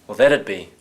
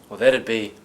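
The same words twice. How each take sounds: Both takes have the same delivery.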